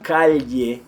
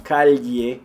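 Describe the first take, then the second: Both takes have the same delivery.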